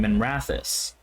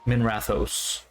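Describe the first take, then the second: First: The ending is a weak, unstressed 'us' sound. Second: The ending is a full, emphasized 'ohs' sound. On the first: "like it's just an us at the end" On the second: "It's like O's, you know, like there's a whole emphasis there instead of us"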